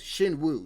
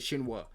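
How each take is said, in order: First: The name ends with an 'oo' vowel. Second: The name ends with an 'ah' vowel. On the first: The speaker calls it right. "It's Shinwoo" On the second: The speaker calls it wrong. "I said Shinwa"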